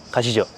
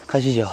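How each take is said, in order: First: Said in the usual way. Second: Winded whisper after the stairs; puffed out, barely voiced; breathless whisper. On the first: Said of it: "여기를 올라가서 어떨지 보여드리겠습니다". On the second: Real, not acted. After climbing 144 steps.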